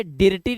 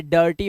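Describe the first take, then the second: First: डिर्टी with "ir" sounded as written; wrong pronunciation. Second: डर्टी as "dur-tee"; first vowel of डर्टी turned into "uh", not "i"; correct pronunciation. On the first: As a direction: say डिर्टी with a short "i" in the first syllable. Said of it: "ये डिर्टी नहीं है". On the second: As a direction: say डर्टी with an "uh" before the r. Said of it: "ये डर्टी हो गया". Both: Shown as a demonstration.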